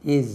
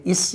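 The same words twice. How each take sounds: First: "Is" ending in voiced z, "iz"; correct "is". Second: "is" with a hissed s ending, "iss"; mispronounced "is", final s unvoiced by mistake; incorrect "is". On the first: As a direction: say "Is" with z in place of s. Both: Shown as a demonstration. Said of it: "அது is இல்ல".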